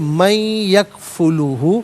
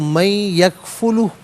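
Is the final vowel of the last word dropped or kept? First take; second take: kept; dropped. First: The last word ends with a final vowel. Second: The last word ends without its final vowel. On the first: The reading continues without stopping. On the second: The reader stops at this point.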